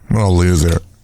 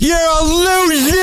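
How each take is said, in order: First: It is said with little emphasis. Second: It is said with strong emphasis.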